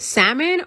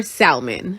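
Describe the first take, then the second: First: "salmon" with a silent L; own pronunciation. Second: "salmon" with the L sounded; alternative pronunciation. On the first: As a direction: say "salmon" as SAM-un, no L sound. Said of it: "'Cause I say salmon". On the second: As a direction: say "salmon" as SAL-mun, L pronounced. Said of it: "is it salmon or salmon". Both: Shown as a demonstration.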